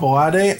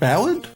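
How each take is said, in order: First: The word ends with an extra final vowel sound. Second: The word ends without a final vowel sound. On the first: The speaker calls it wrong. "If I see an E at the end, I'm pronouncing it" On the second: The speaker calls it right. "you pronounce it Ballad?"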